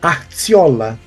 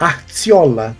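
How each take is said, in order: First: The middle consonant is a ts sound. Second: The same.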